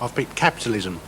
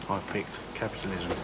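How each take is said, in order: First: It is said more loudly. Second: It is said at normal volume.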